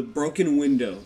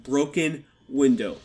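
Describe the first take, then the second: First: Said in the usual way. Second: "broken window" slow and louder, each word weighted; "broken window" repeated with slow, heavy emphasis; stress on repeat. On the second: Shown as a demonstration. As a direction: lean hard on "broken window", slowly. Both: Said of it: "and I repeat".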